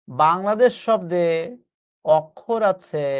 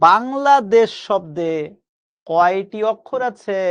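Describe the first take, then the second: First: Slow teacher answer. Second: Slow teacher question. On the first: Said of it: "answer spelled out slowly". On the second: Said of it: "একটু খেয়াল করে দেখেন তো". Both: Shown as a demonstration.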